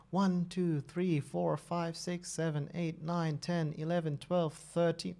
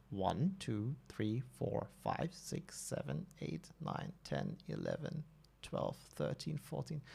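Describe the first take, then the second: First: Said in the usual way. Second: Counting under the breath, much softer; quiet recount. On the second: Real, not acted. Streamer recounting posts for chat, hushed and careful. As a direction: mutter the numbers to yourself. Second recount after doubt.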